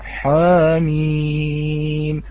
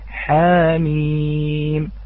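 First: The ha sound is heavy and thick. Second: The ha sound is light and thin. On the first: The speaker calls it wrong. "نسمع من يقرأ حاميم" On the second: The speaker calls it right. "مثال في الحروف المقطعة حاميم"

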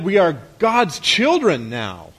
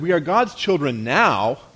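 First: The word now carries no special stress. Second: The word now carries the main stress. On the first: Being God's children is the final destination. "As if that's our arrival point" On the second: Being God's children is only the beginning. "what if you emphasized it like this?"

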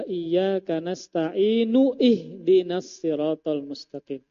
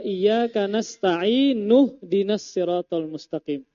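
First: The vowel before 'dinas' is pronounced separately. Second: The vowel before 'dinas' is dropped when linking. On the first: The speaker calls it wrong. "si Din tadi membaca dengan membaca alifnya" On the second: The speaker calls it right. "Digabung bukan nu'ih dinas sirat"

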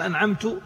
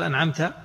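First: The word ends with a final -tu vowel. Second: The word ends with a final -ta vowel. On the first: The reciter himself is the one who bestowed favor. The speaker calls it wrong. "صار من المنعم؟ هو المنعم" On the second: The one addressed bestowed the favor. The speaker calls it right. "يعني أنت يا الله"

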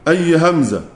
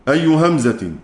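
No difference in how they are said.

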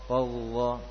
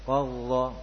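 No difference in how they are said.

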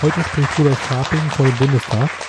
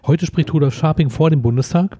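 First: The word vor is not stressed. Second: The word vor is clearly stressed. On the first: He is giving a speech in parliament. The speaker calls it wrong. "oh Gott, mein Fehler" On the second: He is speaking outside the parliament building. The speaker calls it right. "Die korrigierte Form"

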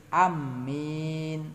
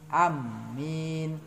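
Both takes have the same delivery.

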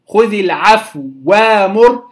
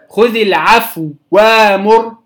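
No difference in how they are said.

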